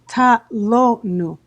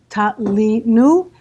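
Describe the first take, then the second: First: The middle syllable has the vowel 'o'. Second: The middle syllable has the vowel 'i'. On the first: This is how the word is spelled. "it's written ta lo nu" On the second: This is how the word is read aloud. "it's pronounced ta li nu"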